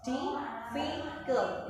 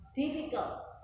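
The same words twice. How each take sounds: First: Difficult spoken very slowly, dif-fi-cult split into its three syllables. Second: Said in the usual way. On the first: Shown as a demonstration. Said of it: "itu tiga suku kata". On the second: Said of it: "Contohnya lagi".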